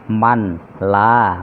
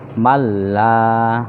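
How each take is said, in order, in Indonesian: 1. Bunyi n dibaca terpisah sebelum l. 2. Bunyi n menyatu ke dalam l ganda. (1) "Itu aslinya" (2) "maka dibaca"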